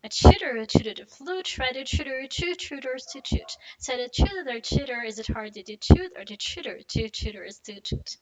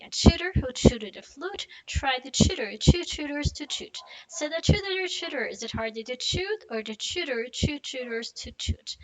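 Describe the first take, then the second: First: Quick run, words linked; fast tongue twister. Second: Slow and careful, every T clear; slow tongue twister. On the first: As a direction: rattle it off fast. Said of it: "you wanna do it fast". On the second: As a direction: go slow, sound by sound. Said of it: "let's do it slowly". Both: Shown as a demonstration.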